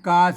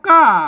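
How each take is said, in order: First: The syllable carries the plain mid tone. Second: The syllable carries the ordinary tho tone. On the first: "กาเสียงสามัญ" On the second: "กาอ่าเสียงโท"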